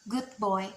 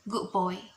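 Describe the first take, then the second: First: The d in good is clearly pronounced. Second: The d in good blends into the b.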